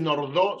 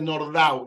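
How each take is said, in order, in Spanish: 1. El nombre se pronuncia a la manera francesa. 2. El nombre se pronuncia a la manera húngara. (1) "no se dice Nordau" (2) "se dice Nordau, era húngaro, no era francés"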